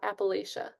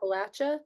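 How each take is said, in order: First: The third syllable has an 'sh' sound, like 'lay-sh'. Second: The third syllable has a 'ch' sound, like 'latch'. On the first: The speaker calls it wrong. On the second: The speaker calls it right. "apparently it's like that you throw an apple at ya"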